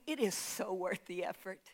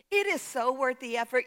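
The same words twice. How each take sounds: First: Much softer and lower, almost confiding; soft, intimate assurance. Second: Said in the usual way. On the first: Real, not acted. Preacher to congregation, promising effort pays off, hushed. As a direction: lean in and say it gently to the congregation. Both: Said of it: "Can I tell you".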